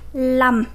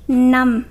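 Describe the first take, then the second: First: The word begins with an l sound. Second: The word begins with an n sound. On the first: The number five comes after another number. "whenever five go after any other number, you will pronounce it lum" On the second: The number five stands alone or comes first. "the word five is pronounced num"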